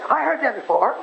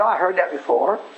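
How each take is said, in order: First: It is said in an eager, welcoming tone. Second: It is said in a bored, dismissive tone. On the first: The listener is glad to hear it again. The speaker calls it right. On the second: The listener is tired of hearing it again. The speaker calls it wrong. "don't act bored. Don't say, oh"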